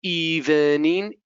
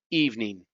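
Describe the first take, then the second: First: "Evening" whispered slowly as ee-ven-ing; careful drawn-out whispered "Evening", rising; slow whispered full syllables. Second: "evening" said as EEV-ning, two syllables; natural "evening", falling; common reduced form. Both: Shown as a demonstration. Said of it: "This is how we commonly pronounce them".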